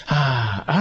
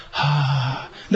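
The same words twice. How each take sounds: First: Weary resigned "haa" as if giving up; defeated sigh. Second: Easy open "haa" on the out-breath; just let the air out freely; relaxed exhale. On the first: Teacher showing the wrong sigh before God, resigned. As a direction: sigh like saying "what's the use". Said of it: "ため息みたいになっちゃう". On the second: Teacher's right way to breathe out, relaxed. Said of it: "せーの". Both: Shown as a demonstration.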